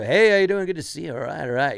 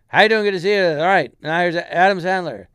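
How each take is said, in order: First: Mock loud, fast open-mic comic patter; hitting the audience over the head; loud fast newbie comic. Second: Much louder, pitched-up emcee bark; mock hack comic yelling; loud comic intro. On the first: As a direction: ham it up like a nervous beginner comic. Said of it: "they're talking really loud and really fast". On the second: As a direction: blast it at the audience. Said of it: "the guy before".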